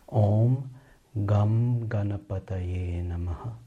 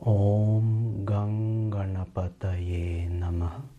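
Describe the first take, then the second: First: The second syllable ends in a plain m sound. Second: The second syllable ends in a throaty ng sound. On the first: "Or with the simpler gum pronunciation" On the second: "from the guttural part of the mouth, which will sound as gung"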